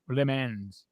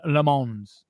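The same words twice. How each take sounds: First: Le Mans said as "lih MENZ", low; flat English E in Le Mans, ending in NZ; alternative pronunciation. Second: Le Mans said slowly as "luh MAHNZ"; candidate pronunciation. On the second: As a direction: open AH in Le Mans, ending in NZ. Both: Shown as a demonstration. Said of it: "how do you pronounce Le".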